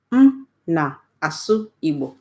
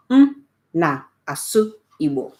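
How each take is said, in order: Both takes have the same delivery.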